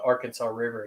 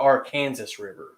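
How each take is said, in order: First: Arkansas is said the standard, non-Kansas way. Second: Arkansas is said the local Kansas way. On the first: This is how people outside Kansas say it. "do not pronounce the Arkansas River the Arkansas River in Kansas" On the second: This is how people in Kansas say it. "They pronounce it the Arkansas River"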